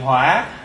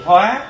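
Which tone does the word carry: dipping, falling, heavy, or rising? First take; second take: dipping; rising. First: The word has a dipping tone. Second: The word has a high rising tone. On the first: It means fire or anger. "bỏ dấu hỏi thì hỏa" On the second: It means to transform. "Bỏ dấu sắc thì hóa"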